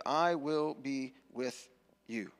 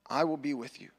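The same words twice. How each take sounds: First: Very slow and weighty; God calmly reassuring Moses; slow, solemn God. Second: Hushed whisper, unvoiced. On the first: Acted. God's answer slow, solemn. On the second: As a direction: whisper the promise close. Repeated as whisper.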